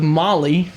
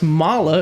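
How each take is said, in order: First: The name ends in an 'ee' sound. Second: The name ends in an 'ah' sound. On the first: The speaker calls it wrong. "instead of Molly, like we have" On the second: The speaker calls it right. "Apparently it's pronounced Mala"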